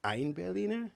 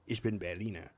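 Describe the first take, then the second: First: "ein Berliner" pitched high, article stretched; higher-pitched demo, leaning on "ein"; article emphasized. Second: "Ich bin Berliner" in German, no article; everyday German for "Ich bin Berliner"; correct German phrase. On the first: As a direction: highlight "ein" before "Berliner", voice raised. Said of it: "the difference between ein Berliner and". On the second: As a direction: model "Berliner" as a German word, evenly. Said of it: "You say". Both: Shown as a demonstration.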